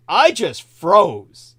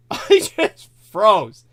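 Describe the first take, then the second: First: Said in the usual way. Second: Slow, laughing through the words. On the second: Real, not acted. Retelling freezing in fright to a friend, laughing. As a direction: chuckle it out slowly.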